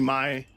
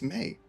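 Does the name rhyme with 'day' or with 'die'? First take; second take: die; day. First: The vowel is an I sound, rhyming with die. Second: The vowel is a long A, rhyming with day. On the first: The speaker calls it right. "It has to be my" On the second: The speaker calls it wrong. "There's no way it's May"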